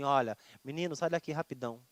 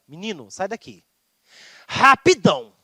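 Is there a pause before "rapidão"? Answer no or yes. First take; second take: no; yes. First: Rapidão follows without a pause, said plainly. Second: A pause comes before a forceful, angrier rapidão.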